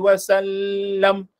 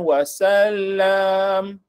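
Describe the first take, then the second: First: The last vowel is kept short. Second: The last vowel is drawn out long. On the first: The speaker calls it right. "sallallahu alaihi wasallam" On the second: The speaker calls it wrong. "bukan wasallam"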